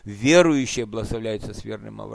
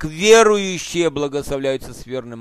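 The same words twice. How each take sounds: First: The word верным carries the stress. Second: The first word, верующие, carries the stress. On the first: Faith shown in deeds is what brings the blessing. The speaker calls it right. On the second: Being a believer is what brings the blessing. The speaker calls it wrong.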